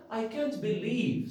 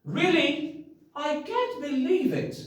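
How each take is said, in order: First: Said in the usual way. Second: High, bright exclamation of disbelief; amazed disbelief. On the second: Shown as a demonstration. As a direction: sound truly astonished. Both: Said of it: "I can't what?".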